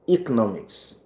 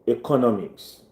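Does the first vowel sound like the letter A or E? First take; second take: E; A. First: The first vowel sounds like the letter E. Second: The first vowel sounds like the letter A. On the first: "some people will say E" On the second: "some people will say A"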